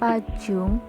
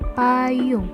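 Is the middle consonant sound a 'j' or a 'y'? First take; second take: j; y. First: The middle consonant is a 'j' sound. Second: The middle consonant is a 'y' sound. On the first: The speaker calls it wrong. "bukan dibaca pajung" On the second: The speaker calls it right. "tapi dibaca payung"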